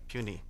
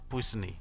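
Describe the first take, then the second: First: The word is said unlike its spelling. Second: The word is sounded out following its spelling. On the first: The speaker calls it right. "It's pronounced puisne" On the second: The speaker calls it wrong. "It's spelled P U I S N E, but it is not pronounced puisne"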